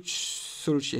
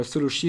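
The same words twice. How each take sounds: First: Solochi in a light mock Japanese accent, drawn out and falling; a hint of a Japanese accent on Solochi. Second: Said in the usual way. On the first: Shown as a demonstration. Card opener slips into a light Japanese accent. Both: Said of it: "pourquoi j'ai fait l'accent japonais".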